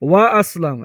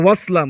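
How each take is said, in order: First: A glottal stop is kept before aslam. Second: The glottal stop is dropped, words run together. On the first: The speaker calls it right. "এই হামজা উচ্চারিত হবে" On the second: The speaker calls it wrong. "এমন হবে না যে"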